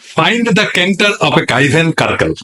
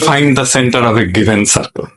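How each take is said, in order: First: Center and circle begin with a hard k sound. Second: Center and circle begin with an s sound. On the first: The speaker calls it wrong. "এক পোলা পড়তেছে" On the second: The speaker calls it right. "ওর উচ্চারণ হবে"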